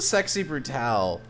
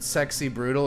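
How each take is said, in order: First: The last word has a French-style stressed ending. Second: The last word sounds like English 'brutal'. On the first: The speaker calls it right. "if they wanted it to be pronounced that way" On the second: The speaker calls it wrong. "I'm just gonna pronounce it Sexy Brutal"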